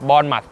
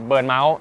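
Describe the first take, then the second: First: It starts with 'born' and ends with 'muth'. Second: It starts with 'bern' and ends with 'mouse'. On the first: The speaker calls it right. "สำเนียงให้ถูกต้องด้วยนะครับ" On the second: The speaker calls it wrong. "ไม่ใช่เบิร์นเมาส์นะฮะ"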